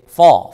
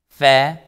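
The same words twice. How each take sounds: First: It sounds heavy, without spread lips. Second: It sounds light, with spread lips. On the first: The speaker calls it wrong. "if you don't smile on fa, fa become fa" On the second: The speaker calls it right. "Smile on fa"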